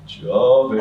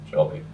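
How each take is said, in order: First: Louder, laughing echo. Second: Said in the usual way. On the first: Retold or imitated. Another passenger echoing the word, louder and laughing. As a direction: toss it back with a laugh.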